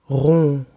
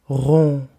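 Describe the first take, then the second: No difference in how they are said.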